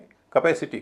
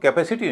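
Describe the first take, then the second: First: The first vowel is short and reduced. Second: The first vowel is full and unreduced. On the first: The speaker calls it right. "उससे पहले जो हिस्सा है उसका उच्चारण हल्का हो जाएगा" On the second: The speaker calls it wrong. "इसको कैपेसिटी नहीं कहेंगे"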